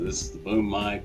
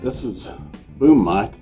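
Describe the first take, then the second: First: The voice sounds quieter and farther away. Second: The voice sounds louder and much closer. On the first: "zero attenuation" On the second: "Plus twenty decibel attenuation. So my voice should sound a lot closer, a lot louder"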